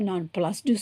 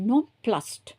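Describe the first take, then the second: First: The ending has an extra syllable after s. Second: The ending is a bare t sound. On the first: The speaker calls it wrong. "நான் ப்ளஸ்டு சொல்லலை" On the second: The speaker calls it right. "அங்கே இடி போட்டிருந்தா கூட நான் வந்து டி sound தான் கொடுக்குறேன்"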